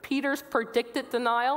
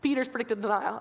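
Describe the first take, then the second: First: It is said slowly and carefully. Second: It is said quickly, like a tongue twister.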